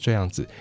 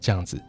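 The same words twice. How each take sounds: First: All three syllables are said fully. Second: The syllables are merged into a shorter form. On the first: "你要发这样子是3 个音，你要很费力" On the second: "很多人于是就把它简化成这样子"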